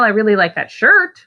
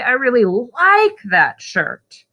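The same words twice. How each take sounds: First: The word shirt carries the main stress. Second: The word like carries the main stress. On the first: The shirt, not the pants. "The pants are hideous, but I like the shirt" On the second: Liking it, as opposed to hating it. "not not hate it, I like it"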